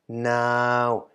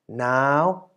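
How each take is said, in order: First: The syllable is said with a mid tone. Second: The syllable is said with a high tone. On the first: "middle tone version" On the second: "resulting in a high tone"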